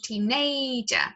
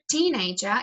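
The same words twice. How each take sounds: First: The stress falls on the middle syllable. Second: The middle syllable is not stressed. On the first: The speaker calls it wrong. "sometimes there is a stress on the A phoneme" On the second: The speaker calls it right. "instead of teenager"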